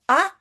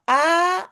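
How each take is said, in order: First: Short, quick "A"; "A" as a brief single vowel. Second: Long, drawn-out "A"; "A" stretched like a double vowel. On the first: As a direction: say "A" briefly, without holding it. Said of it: "j'écris un A". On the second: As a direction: hold the vowel "A" steadily. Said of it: "j'écris deux A". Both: Shown as a demonstration.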